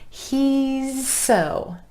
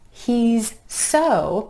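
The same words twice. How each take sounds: First: The Z and S sounds run together smoothly. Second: The Z and S sounds are said separately.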